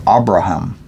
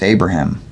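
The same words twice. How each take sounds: First: Abraham said with an opening AH; alternative pronunciation. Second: Abraham said AY-bruh-ham; English pronunciation. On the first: Reader offering another pronunciation, Abraham starting with AH. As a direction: open Abraham with "ah", not "ay". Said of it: "as it is sometimes pronounced". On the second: Reader naming the patriarch, Abraham as AY-bruh-ham. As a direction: say Abraham with a long A, as in "day". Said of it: "or Abraham". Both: Shown as a demonstration.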